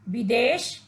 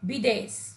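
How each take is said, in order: First: The word ends with an 'sh'. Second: The word ends with a plain 's'. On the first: The speaker calls it right. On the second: The speaker calls it wrong.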